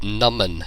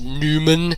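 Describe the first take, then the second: First: The first vowel is a short 'uh' sound. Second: The first vowel is a long 'oo' sound. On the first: The speaker calls it right. "the way you pronounce it is Numan, like Numan" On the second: The speaker calls it wrong. "not Newman"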